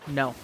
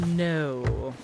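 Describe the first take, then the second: First: The vowel is fairly short. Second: The vowel is long and drawn out.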